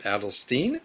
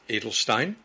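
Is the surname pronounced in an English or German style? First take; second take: English; German. First: The surname is said with English vowels. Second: The surname is said with German vowels. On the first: This is how the show says the name. The speaker calls it wrong. "the show pronounced it Adelstein" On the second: This is how the family says the name. The speaker calls it right. "it's actually pronounced Edelstein ... the German pronunciation"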